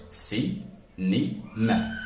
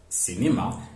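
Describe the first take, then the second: First: "si, ni, ma" as three separate beats with pauses; syllable by syllable. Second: Said in the usual way. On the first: Shown as a demonstration. Teacher showing cinema has three syllables, syllable by syllable. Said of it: "It contains three syllables". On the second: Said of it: "is a trisyllabic word".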